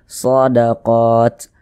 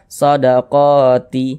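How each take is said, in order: First: The word ends on a silent final t. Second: The word ends with an added i vowel. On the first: The speaker calls it right. "kalau kita berwakaf di huruf ta kita baca" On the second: The speaker calls it wrong. "Jangan dibaca shadaqati"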